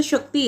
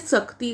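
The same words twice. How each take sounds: First: Said in the usual way. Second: शक्ति said as "sakti", with s for sh; common mispronunciation. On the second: Shown as a demonstration. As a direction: swap the sh of शक्ति for a plain s. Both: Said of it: "शक्ति को क्या बोलते हैं".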